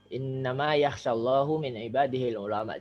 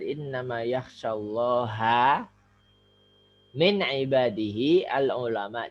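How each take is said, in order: First: Allah ends in u, ulama ends in a. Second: Allah ends in a, ulama ends in u. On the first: God is the one who fears the scholars. The speaker calls it wrong. "ini kalau salah salah membaca, ini bisa fatal akibatnya" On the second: The scholars are the ones who fear God. The speaker calls it right. "Maka dipastikan bacanya harus benar"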